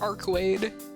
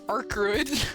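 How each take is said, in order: First: The second syllable sounds like 'wade'. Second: The second syllable sounds like 'wood'. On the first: The speaker calls it right. "But it is in fact Archwade" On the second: The speaker calls it wrong. "I was pronouncing it as Archwood, because I'm stupid"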